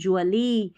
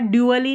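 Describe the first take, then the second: First: The syllable starts with a blended 'j' sound. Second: The syllable starts with a separate 'dy' sound. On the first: The speaker calls it right. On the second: The speaker calls it wrong. "ड्यूअली नहीं"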